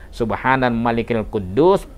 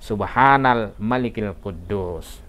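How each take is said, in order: First: It is said at normal loudness and length. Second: It is said louder, with lengthened words.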